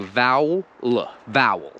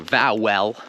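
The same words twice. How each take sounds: First: Vowel as "VOW-ul"; vowel ending on a bare "l"; ignored E. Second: Vowel as "vow-WELL"; vowel in two full syllables; overpronounced E. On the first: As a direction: drop the E in vowel into the L. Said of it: "like I'm ignoring the E". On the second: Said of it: "I'm not saying vowel". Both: Shown as a demonstration.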